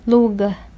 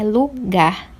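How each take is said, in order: First: The stress is on the first syllable. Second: The stress is on the last syllable. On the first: The speaker calls it wrong. "não é lugar" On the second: The speaker calls it right. "é lugar. A última sílaba"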